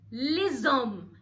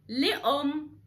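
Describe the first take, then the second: First: The s is pronounced and linked to the next word. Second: The s is silent before the next word. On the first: The speaker calls it right. "لا هنقول لزوم" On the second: The speaker calls it wrong. "مش هنقول لأم"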